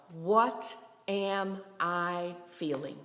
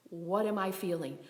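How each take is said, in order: First: "What am I feeling" at half pace, word by word; very slow, reflective self-questioning. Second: Said in the usual way. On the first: Shown as a demonstration. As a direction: set each word of "What am I feeling" apart. Models question to ask oneself.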